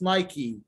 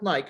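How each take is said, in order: First: The word ends with a final vowel sound. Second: The word ends without a final vowel sound. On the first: The speaker calls it right. "It's Nike. It's this one" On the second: The speaker calls it wrong. "everybody thinks that it's Nike. It's not Nike"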